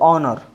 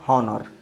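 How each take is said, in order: First: The word starts with a vowel, no h. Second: The word starts with an h sound. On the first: The speaker calls it right. "इसको ऑनर" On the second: The speaker calls it wrong. "Not हॉनर"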